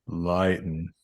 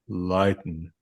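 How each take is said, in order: No difference in how they are said.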